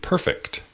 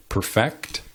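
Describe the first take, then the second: First: Perfect stressed PER-fect; stress on first syllable. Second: Perfect as a verb, per-FECT; stress on second syllable. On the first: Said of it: "emphasizing the first syllable". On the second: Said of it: "emphasizing the second syllable". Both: Shown as a demonstration.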